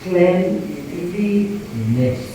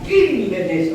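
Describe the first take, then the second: First: The first syllable does not sound like clean. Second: The first syllable sounds like the word clean. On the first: The speaker calls it right. "Because the pronunciation is cleanliness" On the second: The speaker calls it wrong. "But you never say the cleanliness of this room. Wrong"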